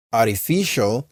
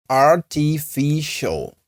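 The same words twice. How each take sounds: First: Said in the usual way. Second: "Artificial" very slow and higher, ar-ti-fi-shul, with a clear t; teacher's careful, higher-pitched "Artificial", every syllable held; slow syllable breakdown. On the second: Shown as a demonstration.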